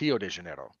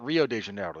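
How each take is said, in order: First: Rio begins with an H-like sound. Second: Rio begins with an English R sound. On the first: The speaker calls it right. "it's ... Words that start with the letter R are pronounced like H's" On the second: The speaker calls it wrong. "They don't actually call it"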